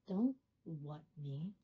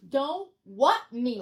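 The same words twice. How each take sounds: First: Low, slow, soft mock menace; quiet reproach. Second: Slow, loud mock indignation; indignant reproach. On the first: Affronted caller to night clerk, low and slow. Retold caller after long pause. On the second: Affronted caller to night clerk, loud and slow. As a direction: hit WHAT hard and draw it out. Retold caller, repeated with force.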